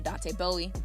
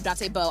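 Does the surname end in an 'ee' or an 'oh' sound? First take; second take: ee; oh. First: The surname ends with an 'ee' sound. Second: The surname ends with an 'oh' sound. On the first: The speaker calls it wrong. "I'm sorry, I always want to say Bowie" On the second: The speaker calls it right.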